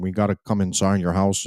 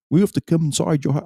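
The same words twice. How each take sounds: First: Said in the usual way. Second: High-pitched, hurried mock British policeman; badly faked British police accent; terrible British accent. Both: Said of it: "terrible accent".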